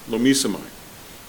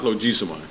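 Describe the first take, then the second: First: The middle consonant is an M sound. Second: The middle consonant is a G sound. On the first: The speaker calls it right. "the pronunciation that the program said is lomisomai" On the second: The speaker calls it wrong. "not logisomai"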